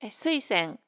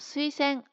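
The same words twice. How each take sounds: First: The pitch is high on the first syllable, then falls. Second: The pitch rises after the first syllable and stays level. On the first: Quite a few people say it this way. "このように発音する人も結構いるようですね" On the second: This is the standard accent. "アクセント0 が標準の普通のアクセントです"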